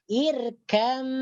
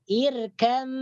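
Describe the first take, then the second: No difference in how they are said.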